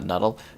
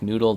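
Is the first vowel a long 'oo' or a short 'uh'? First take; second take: short uh; long oo. First: The first vowel is a short 'uh' sound. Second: The first vowel is a long 'oo' sound. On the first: The speaker calls it wrong. "not nuddle" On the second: The speaker calls it right. "It's pronounced like noodle"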